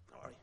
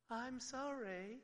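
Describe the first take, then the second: First: Put-on curt, clipped mumble of a sulky kid; grudging child. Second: Slow, drawn-out sorry with a rise; insincere apology. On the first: Caught child to parent, a grudging apology. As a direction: mumble it like you don't mean it. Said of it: "And you go". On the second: Retold or imitated. Child to parent, a slow, insincere apology. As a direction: draw it out, plainly not meaning it. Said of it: "and you don't mean it".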